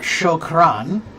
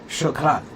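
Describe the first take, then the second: First: It has a long American-style R. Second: It has a quick flipped Arabic R.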